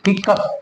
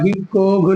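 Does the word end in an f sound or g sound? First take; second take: f sound; g sound. First: The word ends with an f sound. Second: The word ends with a g sound. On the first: The speaker calls it right. "इस तरीके से बोलेंगे" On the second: The speaker calls it wrong. "हिकोग नहीं बोलेंगे"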